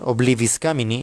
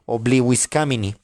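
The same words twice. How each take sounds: First: It uses the ecclesiastical Latin pronunciation. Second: It uses the classical Latin pronunciation.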